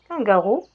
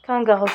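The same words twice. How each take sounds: First: "kangaroo" said as French "kangourou"; French pronunciation. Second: "Kangaroo" said as the English word; English pronunciation. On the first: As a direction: give "kangaroo" French vowels in the translation. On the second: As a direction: give "Kangaroo" its English vowels, KANG-ga-roo. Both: Shown as a demonstration. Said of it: "c'est kangaroo".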